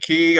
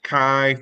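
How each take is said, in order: First: The name is said with an 'ee' vowel. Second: The name is said with an 'eye' vowel. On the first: "I'm pronouncing it Key" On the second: "If you want to be pronounced Kai"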